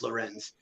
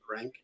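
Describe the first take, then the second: First: The name ends with a z sound. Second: The name ends with a hard k sound. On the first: The speaker calls it right. "but it's Lorenz" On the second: The speaker calls it wrong. "a lot of people were pronouncing it wrong"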